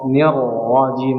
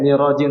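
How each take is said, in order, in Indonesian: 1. Bunyi r-nya ditahan dan ganda. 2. Bunyi r-nya pendek dan tunggal. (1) "Ra-nya ditahan dulu" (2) "jangan sampai ni rajim"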